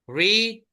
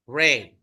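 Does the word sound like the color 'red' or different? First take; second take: different; like red. First: The vowel does not sound like 'red'. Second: The word sounds like the color 'red'. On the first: It is the present tense. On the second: It is the past tense.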